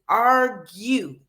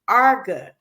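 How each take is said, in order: First: The word ends in a 'yoo' sound. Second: The word ends in a plain 'uh' sound. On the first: The speaker calls it right. "It's argue" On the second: The speaker calls it wrong. "it's not arga"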